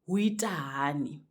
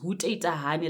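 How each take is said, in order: First: The greeting is said in a shortened form. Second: The greeting is said in its full form. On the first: "it can be shortened by saying huitahani" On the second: "So it's huteitahani like this"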